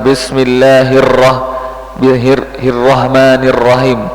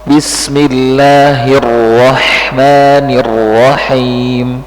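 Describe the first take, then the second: First: Bismillahirrahmanirrahim with a thin ro and a rough ha; the mistaken bismillahirrahmanirrahim, ro not thickened; wrong way. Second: Bismillahirrahmanirrahim, slow, thick ro and clean ha; slow Bismillahirrahmanirrahim with the ro made heavy; right way. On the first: Teacher showing the student the wrong ro. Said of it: "Jadi bukan". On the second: Teacher showing the student the correct thick ro. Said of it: "Ro-nya tebal". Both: Shown as a demonstration.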